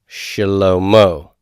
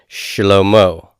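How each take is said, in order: The two takes are said the same way.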